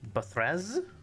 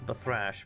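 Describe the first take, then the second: First: The name ends with a z sound. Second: The name ends with an sh sound. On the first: The speaker calls it right. "it's z" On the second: The speaker calls it wrong. "No, it's not thrash"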